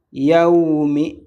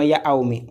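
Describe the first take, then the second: First: "Yaoumi" as one smooth yaw glide; joined glide. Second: "Yaoumi" broken as ya-aou-mi; wrong split vowels. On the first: Teacher showing the right reading, joined glide. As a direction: run ya into ou without a break in "Yaoumi". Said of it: "et non Yaoumi". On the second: Teacher showing learners the mistake, wrong split vowels. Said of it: "On ne va pas dire Yaoumi". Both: Shown as a demonstration.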